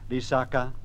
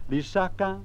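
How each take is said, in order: First: All three syllables are on a low tone. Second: One low syllable is followed by two high. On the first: It means a marsh or a wet place. "if I were to say in three low tones" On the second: It means a poison. "if I use a low and two high tones"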